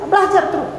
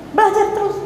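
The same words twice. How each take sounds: The two takes are said the same way.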